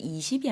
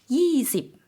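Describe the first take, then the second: First: The word starts with a plain vowel, no 'y'. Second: The word starts with a strong 'y' sound. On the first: The speaker calls it wrong. "이십이 아니라" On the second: The speaker calls it right. "Y가 들어가는 발음이거든요"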